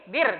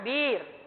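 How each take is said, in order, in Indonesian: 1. Vokalnya diucapkan pendek. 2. Vokalnya diucapkan panjang. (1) "Pendek ya? Jadi bir" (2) "jangan bir"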